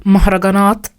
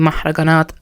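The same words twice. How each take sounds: First: Mahraganat with open Arabic a vowels and h; Arabic pronunciation. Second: Mahraganat said with English vowels; anglicized Arabic. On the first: Vlogger correcting herself, careful Arabic pronunciation. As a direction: say mahraganat the Egyptian way. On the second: Vlogger naming Egyptian music, anglicized pronunciation. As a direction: flatten mahraganat like an English speaker. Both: Shown as a demonstration.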